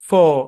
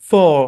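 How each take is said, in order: No difference in how they are said.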